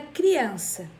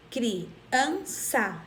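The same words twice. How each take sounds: First: Said in the usual way. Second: "criança" as cri, an, ça with pauses; split into syllables. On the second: Shown as a demonstration. Teacher counting syllables for pupils, "criança" split in three. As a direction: separate every syllable of "criança". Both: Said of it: "Quando eu vou separar a palavra".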